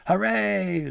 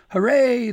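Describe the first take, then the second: First: Loud, high crowd cheer; roaring cheer. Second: Far louder, much higher cheer; crowd shout. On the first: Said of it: "citizens of Borealis roared". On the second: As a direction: shout it out over the sleigh. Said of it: "the crowd shouted again". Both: Acted.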